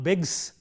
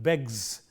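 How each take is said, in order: First: The word ends with a voiceless s sound. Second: The word ends with a voiced z sound. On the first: The speaker calls it wrong. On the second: The speaker calls it right. "Z, not begs, but"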